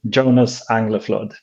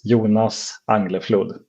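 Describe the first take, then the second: First: The name is said with an American pronunciation. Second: The name is said with a Swedish pronunciation. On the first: "in the American version is like" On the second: "So in Swedish, I'm Swedish. Uh, my name is"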